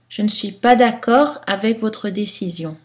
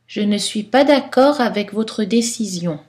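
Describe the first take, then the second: First: Some weak vowels are pronounced, some dropped. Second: Many weak vowels are pronounced fully. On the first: This fits any situation. "Style neutre" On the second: This is formal, literary style. "Style soutenu, style littéraire, poétique"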